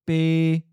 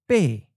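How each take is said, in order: First: The syllable is mid pitch, level and held. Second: The syllable falls from a high pitch. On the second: "the eighth tone is often of a high falling tone"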